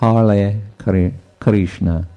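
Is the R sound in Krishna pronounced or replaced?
replaced. It is said without an R sound. This is how local speakers in that place say it. "they cannot pronounce R or V ... they say Hare Krishna"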